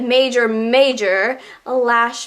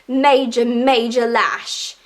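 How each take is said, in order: First: It is said in a plain American accent. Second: It is said in an English accent.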